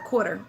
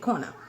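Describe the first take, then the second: First: The r after the vowel is pronounced. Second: The r after the vowel is dropped. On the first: "instead of quarter" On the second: "we say a instead of er"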